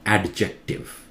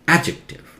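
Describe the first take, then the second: First: A d sound is heard in the middle. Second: No d sound is heard in the middle. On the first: The speaker calls it wrong. "Not adjective" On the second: The speaker calls it right. "D is silent. Skip the D"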